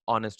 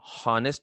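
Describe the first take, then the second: First: The word starts directly with a vowel. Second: The word starts with an h sound. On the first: The speaker calls it right. "ऑनेस्ट होता है" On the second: The speaker calls it wrong. "Pronunciation हॉनेस्ट नहीं होता है"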